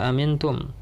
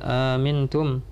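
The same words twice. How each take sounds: First: The second glottal stop is pronounced fully. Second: The second glottal stop is softened, almost gliding. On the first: "yang biasa kita baca" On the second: "dengan tashil"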